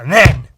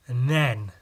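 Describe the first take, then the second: First: Sudden loud "then"; loud dramatic. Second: Said in the usual way. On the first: Real, not acted. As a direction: punch "then" loudly for suspense. Dramatic build-up in story.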